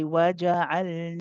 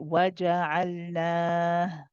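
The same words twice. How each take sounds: First: The long vowel is held for two counts. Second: The long vowel is stretched over several counts. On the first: The reader carries on to the next word. "harakatain. Two counts if we carry on reading" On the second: The reader stops after this word. "if I stopped... It becomes mada'al sukun, two, four, or six counts"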